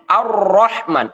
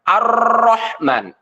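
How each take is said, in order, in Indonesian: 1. R-nya bergetar sebentar. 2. R-nya bergetar panjang dan menggulung.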